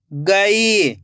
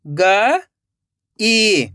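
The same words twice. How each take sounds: First: गई joined as one word with long ई; blended word. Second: गई split into ग, long pause, ई; rising ग, then falling ई; syllable by syllable. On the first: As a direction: read गई whole, stretching the ई. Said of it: "खींच के पढ़ना है". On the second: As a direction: sound out गई in two separate parts. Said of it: "एक एक अक्षर का उच्चारण करना है". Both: Shown as a demonstration.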